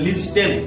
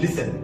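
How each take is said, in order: First: The t sound is pronounced in the middle. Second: The t sound is left out entirely. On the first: The speaker calls it wrong. "বানান অনুসারে কিন্তু এটা উচ্চারণ হওয়ার ছিল" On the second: The speaker calls it right. "যেহেতু টি silent থাকবে সেজন্য উচ্চারণটা হবে লিসেন"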